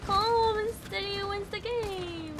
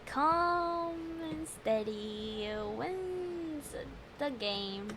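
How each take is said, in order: First: Higher, soft singsong mantra; self-soothing mantra. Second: Slow calming mantra. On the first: Player calming themself while aiming, soft mantra. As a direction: coax yourself to stay steady, softly. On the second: Player calming down before retrying, slow hushed mantra. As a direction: breathe the words out slowly and softly. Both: Real, not acted.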